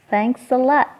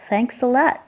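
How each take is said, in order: The two takes are said the same way.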